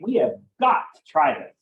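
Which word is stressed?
got. The word got carries the strongest stress. Trying it is absolutely necessary. "I'm putting a lot of emphasis on the word got"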